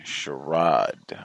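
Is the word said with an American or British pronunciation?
British. It is said with a British pronunciation. "You say charade. ... Is that an English thing?"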